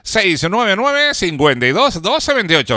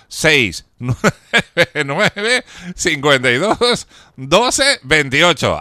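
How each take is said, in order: First: The number is said at normal speed. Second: The number is said more slowly.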